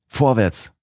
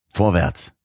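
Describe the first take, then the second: First: Higher, stronger repeat of the call; louder eager cry. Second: A first eager call forward; eager cry. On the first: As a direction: push it up higher, bursting to go. (höher und drängender wiederholter Ruf) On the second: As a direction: urge yourself on, keen to go. (erster eifriger Ruf nach vorn) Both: A narrator's reading. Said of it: "rief ich aus".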